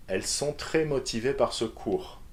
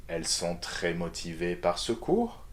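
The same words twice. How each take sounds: First: Said in the usual way. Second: "cours" rises at the end as a question; rising intonation. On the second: Shown as a demonstration. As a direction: lift the last word "cours". (intonation montante sur « cours ») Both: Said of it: "rising intonation".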